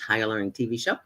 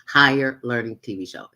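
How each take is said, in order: First: It is said fast. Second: It is said slowly.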